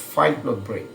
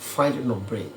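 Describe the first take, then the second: First: The middle word is reduced to a short "n". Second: The same.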